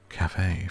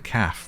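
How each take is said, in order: First: It is said as two syllables. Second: It is said as one short syllable. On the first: The speaker calls it right. "I learned to pronounce it as cafe forevermore" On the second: The speaker calls it wrong. "which is like how a working class would say here"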